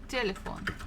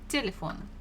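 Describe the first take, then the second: First: The stress is on the first syllable. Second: The same.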